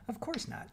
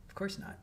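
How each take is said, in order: First: Said in the usual way. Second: Whispered under the breath. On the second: Real, not acted. Repeating her reply to chat, whispered. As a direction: breathe it out like a secret.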